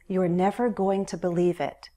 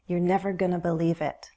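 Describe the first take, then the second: First: It is said with the full form 'going to'. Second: It is said with the reduced form 'gonna'. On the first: "A similar expression is" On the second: "Going to reduces to gonna"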